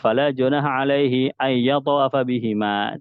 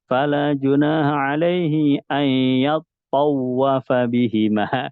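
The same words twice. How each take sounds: First: The phrase is recited quickly without slowing down. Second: The phrase is recited slowly, braking at yatawafa. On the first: The speaker calls it wrong. "yang gampang" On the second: The speaker calls it right. "mesti dia pelan ya, ngerem ya, ngurangin kecepatan"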